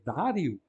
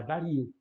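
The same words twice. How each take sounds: First: "dário" stressed DÁ-rio, short i; stress on first syllable. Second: "dario" stressed da-RI-o; stress on penultimate. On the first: Teacher citing the improper form, first-syllable stress on "dário". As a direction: hit the DÁ of "dário". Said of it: "teria que ser breve". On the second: Teacher giving the proper Portuguese form, stressed RI in "dario". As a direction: put the accent on RI in "dario". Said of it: "tem que manter-se na penúltima". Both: Shown as a demonstration.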